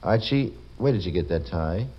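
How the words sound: It is said in a curious, questioning tone. "you say it inquiringly"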